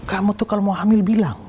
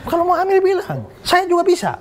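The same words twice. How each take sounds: First: A touch higher, mock-stern complaint; retold angry scolding. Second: Laughing punchline. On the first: Retelling the scolding of his pregnant girlfriend, mildly angry. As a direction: scold her lightly, as if retelling the anger. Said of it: "Saya marah itu loh". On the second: Retold or imitated. Joking to the congregation about his old girlfriend, laughing high. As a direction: deliver the joke while laughing it off.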